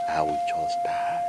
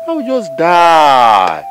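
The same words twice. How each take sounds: First: Slow, low and soft; low despairing threat. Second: High, long-drawn cry; loud despairing wail. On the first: Elder warning family about the land, low despair. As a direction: let it sink down hopelessly. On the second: Elder threatening to die over land, loud wail. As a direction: stretch it out loud and slow. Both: Acted.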